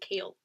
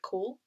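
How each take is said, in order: First: The name rhymes with 'pale'. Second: The name rhymes with 'goal'. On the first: The speaker calls it right. "is actually kale" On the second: The speaker calls it wrong. "I've read like four books of calling him Cole"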